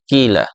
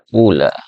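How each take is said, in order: First: The first vowel is a clear i. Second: The first vowel is a clear u. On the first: "Jadi ini cara baca yang pertama, itu dengan mengkasroh fa-nya" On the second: "Anda juga dapat mendomahkan fa-nya"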